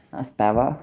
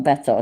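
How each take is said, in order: First: "better" said with a soft flapped middle, like "beh-ra"; "That's better" with the t in "better" softened away; local pronunciation. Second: "better" with a crisp clear t in the middle; careful pronunciation. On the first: Streamer to chat, showing how she says "better". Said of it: "I just said that's better". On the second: Streamer to chat, contrasting with a crisp "better". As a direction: say "better" properly, t fully sounded. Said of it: "I just said that's better, not better". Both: Shown as a demonstration.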